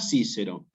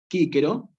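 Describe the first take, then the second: First: Both c's sound like s. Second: Both c's sound like a hard k. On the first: It is a Spanish-style reading of the Latin. The speaker calls it wrong. "nunca Cícero" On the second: It is the classical Latin pronunciation. The speaker calls it right. "o bien Quíquero"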